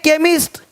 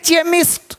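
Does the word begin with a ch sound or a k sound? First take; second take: k sound; ch sound. First: The word begins with a k sound. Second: The word begins with a ch sound. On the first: The speaker calls it right. "इसको चेमिस्ट नहीं पढ़ेंगे" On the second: The speaker calls it wrong. "अब इसको चेमिस्ट नहीं पढ़ेंगे"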